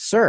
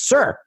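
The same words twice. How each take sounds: First: It is said somewhat louder. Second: It is said very loudly, like a scream.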